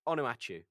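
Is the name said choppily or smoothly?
smoothly. The name flows smoothly without breaks. The speaker calls it right. "it's said more flowingly than that"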